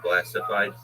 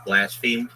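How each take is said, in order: First: The word is said as blastified. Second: The word is said as blasphemed. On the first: The speaker calls it wrong. "not blastified" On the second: The speaker calls it right. "it's blasphemed"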